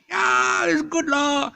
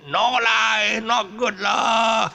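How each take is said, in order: First: Loud, high Singlish yes with lah. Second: Loud, high, slow Singlish no with lah. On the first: Host demoing local style, loud Singlish lah. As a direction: shout it like a happy local. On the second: Host demoing local style, loud slow Singlish lah. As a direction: drag out the disapproving lah. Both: Shown as a demonstration. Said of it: "you speak the local style lah".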